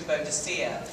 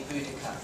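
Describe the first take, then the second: First: "Boadicea" said bo-uh-dih-SEE-uh; old mistranslated name. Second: "Boudica" said BOO-dih-kuh; corrected name. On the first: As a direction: give "Boadicea" its long old form, stressed on SEE. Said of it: "they had wrongly translated her name". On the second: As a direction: say "Boudica" in three syllables, stressed on BOO. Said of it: "in fact it is actually". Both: Shown as a demonstration.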